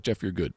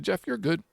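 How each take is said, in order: First: Said in the usual way. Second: Put-on high, half-hearted try at an accent; imitating Robbie. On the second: Retelling how Robbie refused his deposit, in a high mock voice. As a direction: pitch it up high like the friend who waved off the deposit. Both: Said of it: "I can't do his accent".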